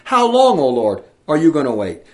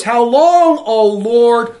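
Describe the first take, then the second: First: Righteous anger. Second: High, loud wailing cry of How long. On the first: Retold or imitated. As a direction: cry out to God in anger. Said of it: "in righteous anger". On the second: A narrator's reading. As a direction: cry it out to heaven. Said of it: "they cried out with a loud voice".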